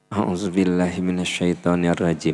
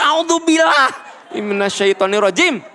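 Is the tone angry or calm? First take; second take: calm; angry. First: It is said in a calm, heartfelt tone. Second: It is said in an angry, forceful tone. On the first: The anger is being let go. The speaker calls it right. "ta'awuz nanti kudu pakai hati" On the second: The anger is still there. The speaker calls it wrong. "Budak kese diatur"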